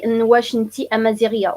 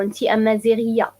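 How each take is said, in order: First: "إن واش أنتي أمازيغية" asked fast, واش leading; question form with واش. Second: Plain statement "أنتي أمازيغية" said fast, without واش; "أنتي أمازيغية" as a simple fast statement; statement form. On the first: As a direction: say "واش" as a question marker, fast with a falling tune. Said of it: "Okay, we say". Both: Shown as a demonstration.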